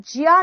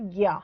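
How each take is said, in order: First: ज्या said with a j sound, "jya"; wrong pronunciation. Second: ज्ञा said with a hard g, "gya"; correct pronunciation. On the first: Teacher rejecting a reading for students, ज्या said as "jya". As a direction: start ज्या on a palatal j, gliding into ya. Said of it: "इसका उस-, उच्चारण स्थान ज्या नहीं होता". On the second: Teacher giving students the accepted reading, ज्ञा said as "gya". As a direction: start ज्ञा in the throat, gliding into ya. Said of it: "इसका उच्चारण स्थान होता है ज्ञा". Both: Shown as a demonstration.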